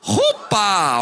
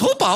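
First: It is said in a normal voice. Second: It is said in a Speedy Gonzalez impression.

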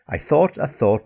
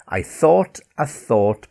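First: It is said at a faster pace. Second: It is said at a slower pace.

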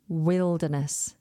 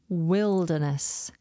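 No difference in how they are said.

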